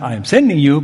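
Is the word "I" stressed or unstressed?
unstressed. The word I is not stressed.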